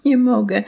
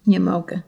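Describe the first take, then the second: First: Higher, pleading whimper through tears; a frightened girl whines she can't go on; tearful whimper. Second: Tearful whimper. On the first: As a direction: beg to go home, close to crying. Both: A narrator's reading. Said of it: "mówiła jękliwie z łez".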